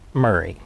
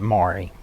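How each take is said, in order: First: The name is said like 'Murray'. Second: The name is said like 'Maury'. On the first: This is how the county says the name. "the county pronounces it Murray" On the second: This is how the family says the name. "the family pronounces it Maury"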